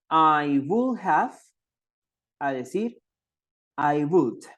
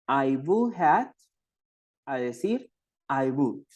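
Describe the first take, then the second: The two takes are said the same way.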